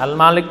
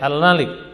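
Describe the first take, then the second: First: The vowel after the m is long. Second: The vowel after the m is short. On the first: It means ruler or master. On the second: It means king.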